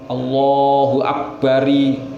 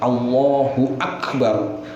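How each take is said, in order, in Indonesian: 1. R terakhir diikuti vokal i. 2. Kata berakhir pada r tanpa vokal. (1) "enggak boleh" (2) "harus roknya itu harus domah"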